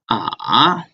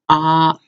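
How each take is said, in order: First: The pitch falls and then rises again. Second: The pitch stays level and unchanged. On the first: "The third one is ah" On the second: "the first one is ah"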